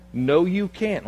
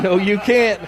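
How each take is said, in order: First: Said in the usual way. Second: Louder flat refusal; firmer retold no. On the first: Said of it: "he didn't say it like that". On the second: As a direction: say it louder and flatly, a firm no. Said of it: "he basically said".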